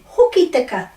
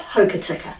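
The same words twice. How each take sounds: First: Hoki tika with pure or-like o and unaspirated t; ho-ki-ti-ka, higher, each vowel clear; correct Māori pronunciation. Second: Hokitika with English oh and slurred middle vowels; Anglicised hokitika, hoe-kuh-tee-kuh; wrong pronunciation. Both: Shown as a demonstration. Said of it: "not hokitika".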